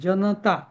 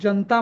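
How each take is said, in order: First: A short vowel is sounded after the n. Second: The n joins straight onto the t. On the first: This is the full reading of every letter. The speaker calls it right. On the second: This is how some people say it nowadays. The speaker calls it wrong.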